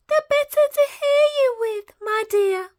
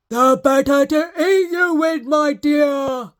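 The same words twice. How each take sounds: First: Much higher, louder croak; wolf answering the girl, croaking. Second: Loud snarling shout; wolf snarling before he pounces. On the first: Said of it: "croaked the wolf". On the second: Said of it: "snarled the wolf". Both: Acted.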